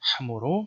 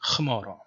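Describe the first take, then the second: First: It is said the Western Syriac way. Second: It is said the Eastern Syriac way, with kh. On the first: "in the Western tradition" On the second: "in the Eastern tradition"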